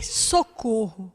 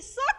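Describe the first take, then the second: First: Soft, slow, drawn-out call for help; retold cry, hushed. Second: Sudden shout for help, reliving the crash; shouted cry for help. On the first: Preacher retelling the crash to the church, a hushed, slow plea. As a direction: let the cry fall to a quiet, slow plea. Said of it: "Eu só gritei". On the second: Retold or imitated. Preacher reliving the near crash, shouting for help. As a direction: yell it out as the car closes in. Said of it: "fez assim".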